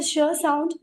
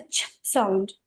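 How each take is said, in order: First: "sh" voiced with an "uh" after it; other teacher's voweled sound. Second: "ch" as a voiceless burst, no vowel; soft, unvoiced "ch"; pure ch sound. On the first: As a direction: add a schwa to "sh". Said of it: "you are saying the sh sound". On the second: Shown as a demonstration. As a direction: release "ch" without any "uh". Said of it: "we teach as a C H".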